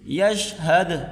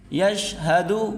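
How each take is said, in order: First: The word ends on the consonant d. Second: The word ends with a short u vowel. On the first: The reader stops on this word. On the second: The reading continues past this word.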